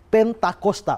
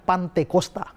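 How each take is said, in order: First: The word begins with 'pen', then 'ta'. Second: The word begins with 'pan', then 'te'. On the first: The word has a real meaning, the fiftieth day. The speaker calls it right. "Pentakosta itu ada artinya hari ke lima puluh" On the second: The word has no meaning. The speaker calls it wrong. "Kalau Pantekosta itu tidak ada arti"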